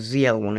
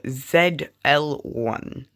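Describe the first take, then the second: First: Said the American way. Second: Said the non-American way.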